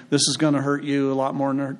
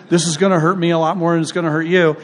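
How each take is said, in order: First: Said in the usual way. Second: Louder, emphatic correct version; corrected saying. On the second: Shown as a demonstration. Preacher correcting the old saying, louder and emphatic. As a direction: put it right with emphasis. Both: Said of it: "no, I said it wrong".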